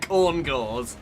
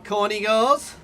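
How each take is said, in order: First: The name sounds like 'corn gores'. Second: The name sounds like 'corny girls'. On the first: The speaker calls it right. "I do know they're called corn gores" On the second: The speaker calls it wrong. "I am definitely mispronouncing it on purpose"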